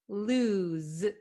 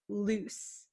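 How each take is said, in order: First: The word ends with a z sound. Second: The word ends with an s sound. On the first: The speaker calls it right. "It's lose, z" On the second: The speaker calls it wrong. "it's not loose"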